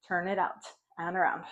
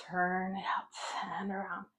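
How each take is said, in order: First: Said in the usual way. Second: Slow breathy whisper. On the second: Shown as a demonstration. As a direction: whisper it slowly, no voice. Repeating the cue whispered.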